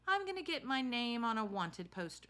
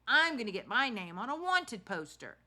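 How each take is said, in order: First: It is read in the reader's ordinary voice. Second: It is read in a put-on character voice. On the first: The speaker calls it wrong. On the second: The speaker calls it right.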